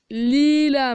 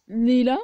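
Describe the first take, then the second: First: Lila said loud with a falling tune, as a correction; correcting a name. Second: Said in the usual way. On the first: Acted. Leila corrects the teacher who mangled her name, loud and firm. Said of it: "ça se prononce Leila".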